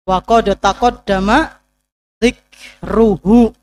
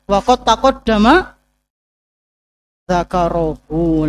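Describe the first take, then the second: First: The last word is read dzikruhu. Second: The last word is read dzakaruhu. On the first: The speaker calls it right. "Telah berlalu penyebutannya" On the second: The speaker calls it wrong. "beda artinya"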